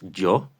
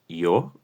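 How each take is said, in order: First: It begins with a buzzing Spanish-style y consonant. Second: It begins with a smooth i glide into o. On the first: The speaker calls it wrong. "No es yo" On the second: The speaker calls it right. "I más O"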